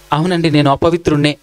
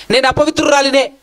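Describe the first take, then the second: First: Said in the usual way. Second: Woman's confession. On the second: Pretend. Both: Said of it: "అని చెప్పగలిగేటటువంటి యథార్థమైన మనసు".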